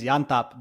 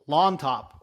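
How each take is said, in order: First: The name begins with a Y sound. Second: The name begins with an L sound. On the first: "So in Spanish, is it Yantop?" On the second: "It's the double L"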